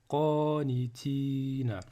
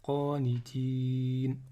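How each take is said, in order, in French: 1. Le mot se termine par une voyelle finale. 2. Le mot se termine par une consonne, sans voyelle finale.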